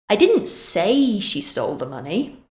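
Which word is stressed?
say. The stress falls on the word say. It was expressed another way, not said. "Maybe I wrote it instead"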